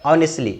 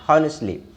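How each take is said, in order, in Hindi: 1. इस शब्द की शुरुआत एक स्वर से होती है, इसमें h नहीं है। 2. इस शब्द की शुरुआत में स्पष्ट h ध्वनि है। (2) "इसको हॉनेस्टली नहीं बोलते"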